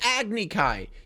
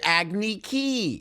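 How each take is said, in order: First: The last syllable sounds like 'kai'. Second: The last syllable sounds like 'key'. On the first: This is the usual pronunciation. The speaker calls it right. "doesn't even call it an Agni Kai" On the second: This is the film's changed pronunciation. The speaker calls it wrong. "He calls it Agni Ki"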